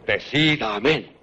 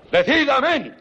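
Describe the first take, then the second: First: Low, slow threatening command; low menacing order. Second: Sharp, raised command; commanding demand. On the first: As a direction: press it slowly, low and heavy. Rodrigo presses the king's hand. (orden lenta, grave y amenazante) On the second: Rodrigo forces the king's oath. (ordenando con fuerza) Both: Acted.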